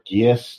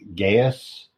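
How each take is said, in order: First: The word is said as two syllables, gee-us. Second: The word is said as two syllables, guy-us. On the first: "Or Gius, depending" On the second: "I've been pronouncing that my entire life as Gaius"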